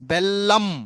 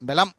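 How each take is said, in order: First: The L sound is held long, doubled. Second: The L sound is short, single. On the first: The speaker calls it right. "ఇది correct" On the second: The speaker calls it wrong. "లాకు లావత్ ఇవ్వకపోతే అది బెలం"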